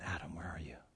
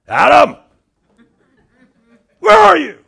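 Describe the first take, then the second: First: It is said in a soft, gentle voice. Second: It is yelled in a harsh, angry voice. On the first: The caller loves and seeks the listener. The speaker calls it right. "Let's change the intonation" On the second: The caller is out to punish the listener. The speaker calls it wrong. "that's the way my dad yelled at me"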